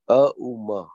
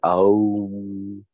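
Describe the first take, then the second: First: A short extra vowel follows the m sound. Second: The word ends cleanly on the m sound. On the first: The speaker calls it right. "Auma, correct" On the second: The speaker calls it wrong. "Some people say, Aum. No, it's wrong"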